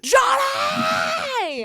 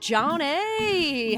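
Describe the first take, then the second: First: It is said loudly with excited energy. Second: It is said calmly with low energy.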